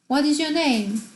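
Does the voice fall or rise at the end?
fall. The pitch falls at the end. The speaker calls it right.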